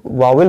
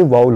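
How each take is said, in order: First: वावेल in two syllables, "vaa-vel"; mispronunciation demo. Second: वाउल as one gliding "vowl" syllable; correct pronunciation. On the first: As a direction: show the common वावेल with a clear "vel". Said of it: "ये वाउल होता है". (वावेल, दो हिस्सों में गलत उच्चारण) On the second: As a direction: model वाउल with no "vel" at the end. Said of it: "जो correct उच्चारण ही है". (वाउल, एक ही सिलेबल में सही उच्चारण) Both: Shown as a demonstration.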